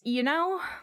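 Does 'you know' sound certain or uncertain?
uncertain. It sounds unsure and questioning.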